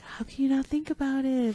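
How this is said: It sounds excited and enthusiastic.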